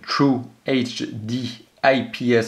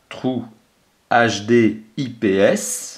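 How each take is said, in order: First: It is said with an English accent. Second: It is said with a French accent. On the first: "avec mon très très bon accent anglais" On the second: "en français, et en étant un peu plus modeste"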